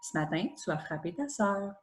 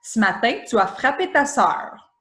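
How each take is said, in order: First: It is said in a calm, gentle tone. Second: It is said in a harsh, accusing tone.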